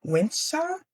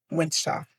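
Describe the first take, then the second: First: "Wincha" high with a rising, questioning end; questioning, unsure. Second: Said in the usual way. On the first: Real, not acted. Trying to recall the word for beautiful, "Wincha" as an unsure question. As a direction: say "Wincha" as a tentative higher-pitched guess. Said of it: "what was it?". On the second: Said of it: "if that's how you even say it".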